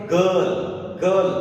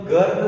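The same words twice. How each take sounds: First: गर्ल said as gal, r silent; correct pronunciation. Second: गर्ल with the r rolled out clearly; wrong pronunciation. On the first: Teacher giving students the right गर्ल, r silent. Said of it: "इसे अपन क्या पढ़ेंगे?". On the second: Teacher showing students the wrong गर्ल with r. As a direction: say गर्ल sounding the r. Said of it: "इसे अपन गर्ल नहीं पढ़ेंगे". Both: Shown as a demonstration.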